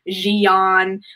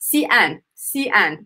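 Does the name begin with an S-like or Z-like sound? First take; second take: Z-like; S-like. First: The name begins with a z-like sound. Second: The name begins with an s-like sound. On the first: The speaker calls it wrong. "mispronouncing the name" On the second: The speaker calls it right. "the letter X is more of a S sound"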